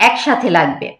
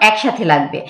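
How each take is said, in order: Both takes have the same delivery.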